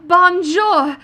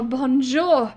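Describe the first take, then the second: First: The voice is pitched higher, not deep. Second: The voice is pitched lower and deeper. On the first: The speaker calls it wrong. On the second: The speaker calls it right.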